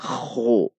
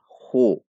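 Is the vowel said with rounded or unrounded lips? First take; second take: unrounded; rounded. First: The vowel is said with unrounded lips. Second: The vowel is said with rounded lips. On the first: The speaker calls it wrong. "Bukan dibaca khu" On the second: The speaker calls it right. "Dengan membulatkan bibir karena haknya dhummah"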